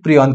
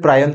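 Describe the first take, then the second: First: The first vowel sounds like 'ee'. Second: The first vowel sounds like 'eye'. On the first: "काही लोक याचा याचा accent प्रियॉन करतात" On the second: "काही लोक याचा ऍक्सेंट प्रायॉन करतात"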